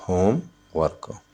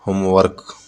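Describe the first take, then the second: First: "homework" as होम, pause, work; syllable by syllable. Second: Said in the usual way. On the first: Shown as a demonstration. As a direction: break "homework" into two beats. ("Homework" को होम... work, अलग-अलग) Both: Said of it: "तो इसमें टू syllable है".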